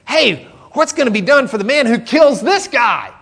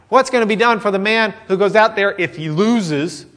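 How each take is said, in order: First: High, loud, keen to know the prize; eager question. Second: A timid, hedging version of the question; mock worried. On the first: Retold or imitated. David asking the soldiers about the reward, eagerly. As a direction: ask it like a kid spotting a chance. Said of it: "David asks the men". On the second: What a fearful soldier would ask, mock worried. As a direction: ask it nervously, as a doubter would. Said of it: "it wasn't like".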